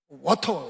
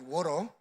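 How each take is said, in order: First: It is said with a Korean accent, clear t. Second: It is said with an American accent, flapped t.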